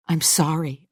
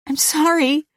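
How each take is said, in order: First: Said in the usual way. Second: High-pitched, horrified apology; shocked apology. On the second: A narrator's reading. Louise just after slapping Mister Carter, aghast.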